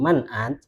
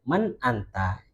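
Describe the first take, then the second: First: The last word ends on a bare consonant. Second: The last word ends with a final vowel. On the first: This is the form used in real conversation. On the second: This is the form used when reading aloud. "Kalau kita bacanya"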